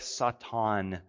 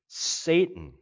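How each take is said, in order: First: The word has a Hebrew-style pronunciation. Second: The word has its usual English pronunciation.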